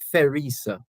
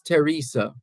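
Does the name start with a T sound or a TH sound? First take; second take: TH sound; T sound. First: The name starts with a TH sound. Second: The name starts with a plain T sound. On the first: The speaker calls it wrong. "as opposed to" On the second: The speaker calls it right. "the H is silent"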